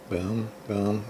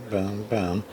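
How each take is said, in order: Both takes have the same delivery.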